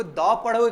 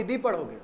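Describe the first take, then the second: First: "द" with an open, short vowel sound; teacher offering "द" as the duh option; pronounced "the" as duh. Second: "दी" with an ee vowel; teacher offering "दी" as the dee option; pronounced "the" as dee. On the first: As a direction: say "द" as duh, before a consonant sound. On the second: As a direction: say "दी" as dee, rhyming with see. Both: Shown as a demonstration. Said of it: "द पढ़ोगे कि दी पढ़ोगे".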